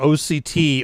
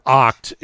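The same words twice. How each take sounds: First: It is spelled out letter by letter. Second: It is pronounced as a single word.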